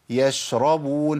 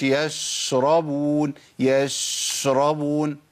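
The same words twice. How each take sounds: First: يشربون recited slowly with a measured sh; correct shin. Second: يشربون with the sh dragged out too long; over-held shin. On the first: Teacher modelling the right reading, measured shin in يشربون. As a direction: give the sh in يشربون just its due length. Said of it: "أقول إيه؟". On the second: Teacher showing what not to say, over-held shin in يشربون. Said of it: "ما أقولش". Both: Shown as a demonstration.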